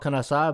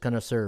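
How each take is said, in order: First: The word is pronounced with a French pronunciation. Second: The word is pronounced with an English pronunciation. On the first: "in French it's called" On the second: "but probably in English"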